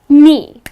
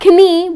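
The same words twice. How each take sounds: First: The word starts with a silent K. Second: The word starts with a sounded K. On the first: The speaker calls it right. "it's just knee. The letter K at the beginning of the word goes silent" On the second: The speaker calls it wrong. "it's not knee"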